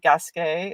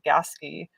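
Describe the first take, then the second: First: The name is said with a French-style pronunciation. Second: The name is said with an English-style pronunciation. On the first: This is the name's original form. "But it's really Gasquet. It's French" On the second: This is how people living nearby say it. "that's how the locals pronounce it"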